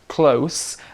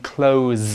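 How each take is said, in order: First: The word ends with a hissing S sound. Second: The word ends with a buzzing Z sound. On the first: It means near. "then we're actually talking about the adjective" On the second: It means to shut something. "with a Z sound"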